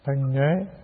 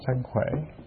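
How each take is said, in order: First: The second word begins with an 'nh' sound. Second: The second word begins with a 'kh' sound. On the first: "Ta đọc khác thôi" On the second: "Cái chữ đó cũng đọc là sân khỏe"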